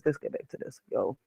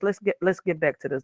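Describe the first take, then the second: First: Whispered to herself, almost silent; quiet whispered reminder to get back on track. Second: Said in the usual way. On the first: Shown as a demonstration. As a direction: breathe it under your breath. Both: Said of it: "let's get back on this".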